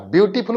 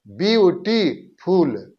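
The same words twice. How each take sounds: First: Said in the usual way. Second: beautiful very slowly, a clear break between syllables; broken into syllables. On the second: Shown as a demonstration. Teacher showing learners the break inside a word, beautiful split slowly into syllables. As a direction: stretch beautiful out piece by piece, pausing inside. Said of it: "बीच में एक break आ रहा है".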